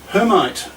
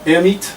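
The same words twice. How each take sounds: First: It is said the English way, H sounded. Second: It is said the French way, H silent.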